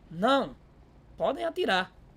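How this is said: There is a pause after the first word. They are allowed to shoot. "A simples presença da vírgula causa essa pausa"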